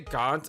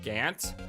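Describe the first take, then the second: First: The vowel sounds like the vowel in 'on'. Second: The vowel sounds like the vowel in 'an'. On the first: "I say Gaunt" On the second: "instead of Gant"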